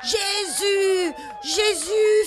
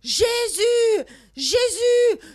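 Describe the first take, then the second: First: It is called out less loudly. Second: It is called out more loudly.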